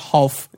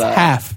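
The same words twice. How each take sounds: First: The L is clearly pronounced in the word. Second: The L is silent in the word. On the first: The speaker calls it wrong. "It's not half. He pronounces the L like an idiot" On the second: The speaker calls it right. "it's a silent L. it's half"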